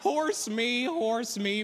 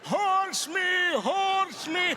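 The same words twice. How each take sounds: First: It is said gently and reassuringly. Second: It is yelled like Gandalf at a hobbit.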